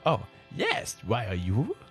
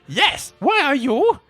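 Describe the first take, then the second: First: It is said in a put-on sexy voice. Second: It is said in a plain reading voice.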